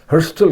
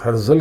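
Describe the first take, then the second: First: हर्स्टल with a clear s-t-l cluster, Hers-tal; Israeli pronunciation. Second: हर्जल said with a plain z sound, Har-zal; common pronunciation. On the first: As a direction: stress हर्स्टल and sound the s and t before the l. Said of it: "एसटीएल की आवाज़ आती है". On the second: Naming Herzl for viewers, हर्जल with a plain z. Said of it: "यहूदी उसको हर्स्टल, हर्स्टल कहते हैं". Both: Shown as a demonstration.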